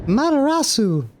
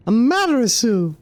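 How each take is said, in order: First: "Matarasu" said as ma-ta-ra-su. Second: "Amaterasu" said in full, a-ma-te-ra-su; careful full "Amaterasu"; full name. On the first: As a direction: say "Matarasu" with the first syllable dropped. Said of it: "That's how we're saying it". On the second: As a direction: give all five syllables of "Amaterasu". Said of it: "so hard for me to pronounce". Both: Shown as a demonstration.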